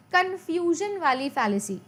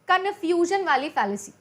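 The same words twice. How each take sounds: The two takes are said the same way.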